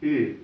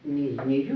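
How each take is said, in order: First: It is a rounded front vowel like German ü. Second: It is a glide plus 'u', like Russian yu. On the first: The speaker calls it right. "как такое вот немецкое «ю» с умляутом" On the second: The speaker calls it wrong. "не «ю»"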